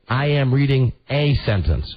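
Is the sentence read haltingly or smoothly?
haltingly. It is read in a halting, bumbling way. Someone reads poorly, mechanically. The speaker calls it wrong. "he's bumbling and he's a bad reader ... he would read it like this"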